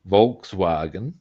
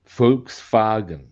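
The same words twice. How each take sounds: First: It is said with English V and W sounds. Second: It is said with German F-like and V sounds. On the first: The speaker calls it wrong. "over here in Australia and England and probably the U S A" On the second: The speaker calls it right. "In German, note in German"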